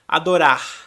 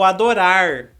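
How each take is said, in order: First: The final r is a faint breath. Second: The final r is a curled-tongue r. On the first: "quase não pronuncia o som do R. Ela faz mais um, uma sopradinha" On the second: "aquele R caipira"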